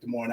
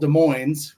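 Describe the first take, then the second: First: The final S of Moines is silent. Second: The final S of Moines is pronounced. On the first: It names the city in Iowa. "not Des Moines like Des Moines, Iowa" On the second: It names the town in Washington. "We pronounce the S there"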